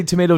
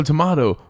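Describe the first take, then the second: First: Tomato as tuh-MAY-toh; raised pitch, tomato with an AY; American pronunciation. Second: Tomato as tuh-MAH-toh; raised pitch, tomato with an AH; British pronunciation. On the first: Co-host quotes the old saying, tomato with MAY. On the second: Co-host quotes the old saying, tomato with MAH. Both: Shown as a demonstration. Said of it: "they say tomato, tomato".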